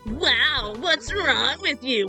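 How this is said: It is said in a nasal voice.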